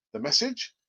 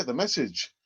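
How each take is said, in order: First: "message" rising as a question; questioning echo. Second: "message" falling, as a statement; confirming answer. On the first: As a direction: echo it back with a rise on "message". Questions own phrase, then answers it. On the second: Answers own echoed question. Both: Acted.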